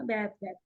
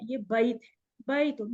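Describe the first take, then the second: First: Low, soft "बैत" with no -un ending; wrong pronunciation. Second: "बैत" with a clear ay-i glide, then "बैतुन"; correct pronunciation. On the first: Retold or imitated. Teacher mimics what some people say, wrong pronunciation. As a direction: say "बैत" as one short beat, bait. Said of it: "कुछ लोग बैत कहते हैं". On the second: Shown as a demonstration. Teacher corrects a common slip, correct pronunciation. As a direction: open "बैत" to ba-yit, add -un in "बैतुन". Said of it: "तो बैत नहीं है".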